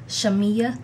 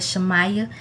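First: The middle syllable sounds like 'me'. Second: The middle syllable sounds like 'my'. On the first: The speaker calls it right. "it's actually pronounced Shamia" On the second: The speaker calls it wrong. "I would have said Shamaya"

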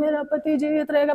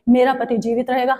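First: It is said weakly and without authority. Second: It is said firmly and with authority. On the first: The speaker lacks confidence in the outcome. The speaker calls it wrong. "ऐसे नहीं बोलना है" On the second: The speaker claims the outcome with confidence. The speaker calls it right. "Authority लो"

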